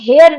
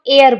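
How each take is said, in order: First: The word starts with an h sound. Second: The word starts with a vowel sound. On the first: The speaker calls it wrong. "उसको हम हेयर नहीं बोलते हैं" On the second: The speaker calls it right. "उसको हम एयर बोलते हैं"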